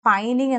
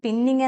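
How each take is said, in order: First: The first vowel sounds like 'eye'. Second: The first vowel sounds like 'ih'. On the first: The speaker calls it right. "അതിനെ pronounce ചെയ്യുന്നത് പൈനിങ് എന്നാണ്" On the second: The speaker calls it wrong. "പിന്നിങ് എന്നല്ല"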